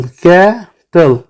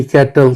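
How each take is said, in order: First: cattle very slowly as कै-टल; two drawn-out beats on cattle; split into syllables. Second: Said in the usual way. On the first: Shown as a demonstration. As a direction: stretch कै, pause, then टल in cattle. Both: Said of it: "टू syllable".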